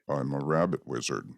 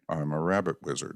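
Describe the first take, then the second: First: It is said in a somewhat higher voice. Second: It is said in the highest voice.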